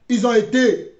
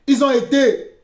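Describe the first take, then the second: No difference in how they are said.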